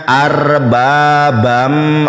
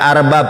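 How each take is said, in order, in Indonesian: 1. Kata itu berakhir dengan bunyi sengau m. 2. Kata itu berakhir dengan bunyi b. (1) "Dibacanya arbabam, ada idgham biguna" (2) "dibacanya bukan arbab"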